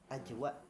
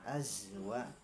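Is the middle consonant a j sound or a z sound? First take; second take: j sound; z sound. First: The middle consonant is a j sound. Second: The middle consonant is a z sound. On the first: The speaker calls it wrong. "tadi dibaca aj" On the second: The speaker calls it right. "azwa gitu ya"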